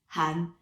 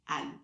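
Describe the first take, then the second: First: The name begins with an audible H sound. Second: The name begins without any H sound. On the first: The speaker calls it right. "you're supposed to pronounce it Han" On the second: The speaker calls it wrong. "they always say Anne"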